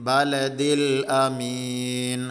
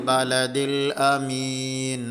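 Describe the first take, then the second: Both takes have the same delivery.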